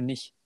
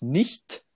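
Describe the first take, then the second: First: It is clipped, regional style. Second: It is fully pronounced, standard German.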